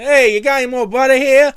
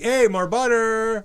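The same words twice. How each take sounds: First: Loud, high fake Italian accent. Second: High, slow fake Italian accent; hammy fake Italian accent asking for butter. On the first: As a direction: shout for butter in a put-on Italian accent. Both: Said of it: "You started talking in a fake Italian accent".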